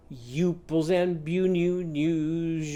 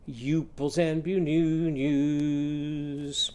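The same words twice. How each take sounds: First: Youples and bu-new-news with every vowel a you; vowels all you. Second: Youples and bu-new-news drawn out slowly; vowels all you, slow. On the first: Teacher modelling the you vowel, slow chant. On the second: Teacher slowing the you chant for children to follow. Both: Shown as a demonstration. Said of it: "Your turn".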